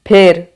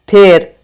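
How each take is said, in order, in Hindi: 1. स्वर 'e' ध्वनि है, जैसे 'bed' में। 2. स्वर 'e' ध्वनि है, जैसे 'bed' में।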